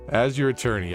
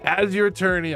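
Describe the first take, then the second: First: It is said in the speaker's ordinary voice. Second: It is said in an imitated character voice.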